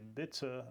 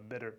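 First: The middle t is a clear t. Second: The middle t sounds like a soft d. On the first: The speaker calls it wrong. "то это не" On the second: The speaker calls it right. "Т между гласными ... превращается в подобие такого д-д-д-д-д"

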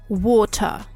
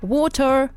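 First: The final R is almost silent. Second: The final R is clearly pronounced. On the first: "В британском языке... ее почти не слышно" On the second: "С американским вариантом... она будет слышна и заметна"

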